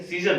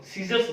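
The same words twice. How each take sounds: First: सीजर ending on r; mistaken singular. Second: सीजर्स with a final s; correct plural form. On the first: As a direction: drop the s from सीजर. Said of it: "सीजर नहीं बोलते हैं". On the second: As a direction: end सीजर्स on an s sound. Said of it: "सीजर्स बोलते हैं". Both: Shown as a demonstration.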